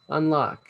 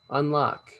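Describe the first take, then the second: No difference in how they are said.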